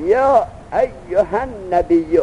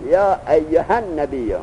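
First: Slow Quranic chant of یا ایها النبی, vowels stretched long; drawn-out recitation. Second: یا ایها النبی read at normal pace, الف of ها dropped; plain reading. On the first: Teacher reciting the verse to students, slow and stretched. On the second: Teacher giving the correct reading to students, plainly. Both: Shown as a demonstration. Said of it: "ایها النبی یا با الف ها نبی".

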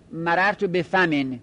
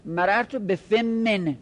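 First: مررت به فمن, no doubling on m; light single mim. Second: Slow مررت به فمن, m held double; doubled mim. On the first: Teacher modelling the plain form for the class. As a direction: say فمن as fa-men with one short m. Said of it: "بگید فمن". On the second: Teacher modelling the doubled form, slowly. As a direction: say فمن as fim-min with a long held m. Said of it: "میمش تشدید بدید". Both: Shown as a demonstration.

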